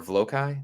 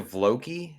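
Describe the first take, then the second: First: "Vlokai" ending like the word eye; Vlokai pronunciation. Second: "Vloki" ending in an ee sound; Vloki pronunciation. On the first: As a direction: say "Vlokai" as VLOH-kai. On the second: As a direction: say "Vloki" as VLOH-kee. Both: Shown as a demonstration. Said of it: "but I pronounce it like it doesn't".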